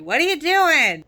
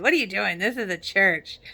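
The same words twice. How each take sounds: First: Higher and louder, demanding; louder alarmed challenge. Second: Said in the usual way. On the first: Retold or imitated. Lucas rushing in to rescue, loud demanding. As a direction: confront him, voice up and loud.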